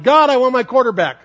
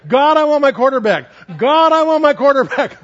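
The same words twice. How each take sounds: First: Put-on high, louder child's yell. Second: Put-on high, louder child's yell at full swing. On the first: Little girl yelling from the swing, high and louder. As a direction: shout it up to the sky from the swing. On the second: Little girl yelling to God at the top of the swing, high and louder. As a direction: call it out to God, louder each time. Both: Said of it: "she was yelling".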